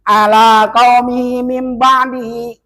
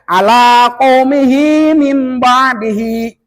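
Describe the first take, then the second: First: The final 'hi' syllables are dropped. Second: The final 'hi' syllables are clearly pronounced. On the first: The speaker calls it wrong. "Kadang-kadang gini bacanya" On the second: The speaker calls it right. "Santai aja"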